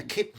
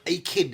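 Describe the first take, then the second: First: "Akin" run together as one word. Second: "akin" split into "ay" and "kin"; two words, a kin. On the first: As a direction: say "Akin" with no gap after the A. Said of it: "akin, A K I N, no spaces". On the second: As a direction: stress a separate "AY" before kin in "akin". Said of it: "as in, you know, wonderful brothers". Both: Shown as a demonstration.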